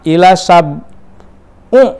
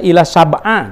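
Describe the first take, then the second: First: The second word ends in an u vowel. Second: The second word ends in an a vowel. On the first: "Jangan sampai membaca" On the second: "Jangan sampai membaca ila sab'a"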